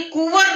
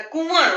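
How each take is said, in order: First: कुंवर said as कुवर, with an oral उ; no nasal sound. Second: कुंवर with the उ through the nose; nasalised vowel. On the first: Teacher shows children the wrong word, without nasality. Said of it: "ये कुंवर नहीं word होता है". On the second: Teacher corrects the word for children, nasalised vowel. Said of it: "नाक से आवाज निकल रही". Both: Shown as a demonstration.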